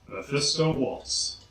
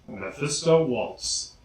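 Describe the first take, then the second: Both takes have the same delivery.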